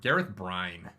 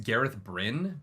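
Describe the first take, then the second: First: The last name sounds like the word brine. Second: The last name does not sound like brine. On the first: It makes him sound like a pickle. The speaker calls it right. "Brine makes him sound like he's a pickle" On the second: This is how most people say it. The speaker calls it wrong. "people say it's Gareth Bryn"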